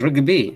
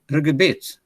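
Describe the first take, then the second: First: The word ends without a t sound. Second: The word ends with a t sound. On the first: This is the form used in one local area. "The T is gone now" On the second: This is the form used in most regions. "Most Tigrinya areas, pigeon is Rigibit"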